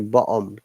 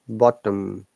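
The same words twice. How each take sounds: First: The T in the middle is dropped. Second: The T in the middle is pronounced clearly. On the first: This is the Cockney pronunciation. "Cockney people ... simply say bottom, no T sound for them" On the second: This is the standard British pronunciation. "in standard British English we pronounce it bottom"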